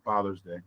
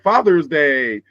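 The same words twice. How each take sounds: First: It is said flatly with little energy. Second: It is said loudly with big energy. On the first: The day is barely noticed. The speaker calls it wrong. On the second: The day gets lots of public attention. The speaker calls it right. "It needs to be like Father's Day"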